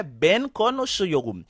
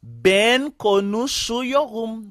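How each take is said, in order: First: Said in the usual way. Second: Slow, drawn-out model sentence; careful slow teaching pronunciation; slow demonstration. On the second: Shown as a demonstration. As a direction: say it word by word for learners. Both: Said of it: "eh bien là moi pral dire".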